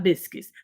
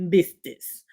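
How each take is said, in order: First: Biscuits said as bis-kits with a clear k; standard pronunciation. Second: Biscuits said as bistits, t in place of k; local pronunciation. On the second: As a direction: Biscuits with a t sound, bis-tits. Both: Shown as a demonstration. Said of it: "not biscuits".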